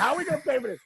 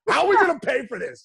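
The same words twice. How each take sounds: First: Said in the usual way. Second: Louder, higher panicked question; worried outburst. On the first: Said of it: "You know what I mean?". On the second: Retold or imitated. Son retelling his worry over college costs, in a louder panicked voice. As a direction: blurt out the worry about money. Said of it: "I was like".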